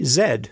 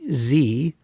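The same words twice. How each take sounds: First: The letter ends with a d sound. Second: The letter ends with a long ee sound. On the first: This is how Canadians say it. "we say Z here in Canada" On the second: This is how people outside Canada say it. "we don't say Z"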